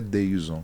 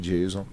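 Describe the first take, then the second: First: The name begins with a D sound. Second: The name begins with a J sound. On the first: This follows Portuguese spelling rules. "do ponto de vista da escrita da língua portuguesa, ele é Deison" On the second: This is how the mother says it. "Mas a minha mãe disse que é Jason"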